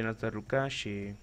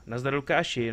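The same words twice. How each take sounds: First: Said in the usual way. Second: Louder, upbeat hello with a falling end on Lukáši; greeting a viewer in stream chat, lively; cheerful greeting. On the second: Real, not acted. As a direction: call out "Nazdar, Lukáši" brightly to a viewer.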